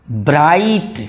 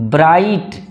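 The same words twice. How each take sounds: The two takes are said the same way.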